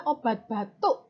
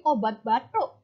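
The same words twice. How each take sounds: First: Said in the usual way. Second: Balinese obat batuk with breathy aspirated t; Balinese accent. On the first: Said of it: "kalau orang Bali yang melafalkan". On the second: Shown as a demonstration. Teacher imitating Balinese speakers for the class: aspirated t in obat batuk. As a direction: obat batuk, t sounds given a puff of h, Balinese style. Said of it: "karena T-nya ada H-nya".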